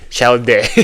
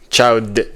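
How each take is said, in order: First: The name is said with a French accent. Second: The name is said in plain English.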